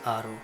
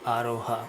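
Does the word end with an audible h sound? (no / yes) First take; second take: no; yes. First: The final h sound is dropped. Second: The final h sound is pronounced. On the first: The speaker calls it right. "We just say aro" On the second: The speaker calls it wrong. "we don't usually say aroha"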